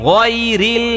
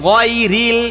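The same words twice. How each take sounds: Both takes have the same delivery.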